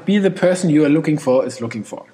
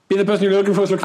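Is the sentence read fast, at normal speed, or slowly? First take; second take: normal; fast. First: It is read at a normal pace. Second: It is read at a fast pace.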